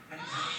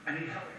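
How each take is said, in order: First: High breaking cry for help; crying plea. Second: Said in the usual way. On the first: Retold or imitated. Teen addict begging the police for help: high crying plea. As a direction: voice cracking as he begs. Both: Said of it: "I said".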